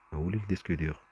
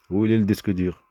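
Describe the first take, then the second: First: Said in the usual way. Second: Much louder, higher demanding yell; real angry shout. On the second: Real, not acted. Speaker losing their temper over the hard drive, shouting. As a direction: blow up and demand the answer. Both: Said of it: "il faudrait que je me calme".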